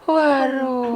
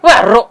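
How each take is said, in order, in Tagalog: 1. Mahaba at malambot ang pagkasabi sa waro. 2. Maikli ang pagkasabi sa waro at biglang binitawan. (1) "pinapahaba eh" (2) "Pinabundak yung kay Miley"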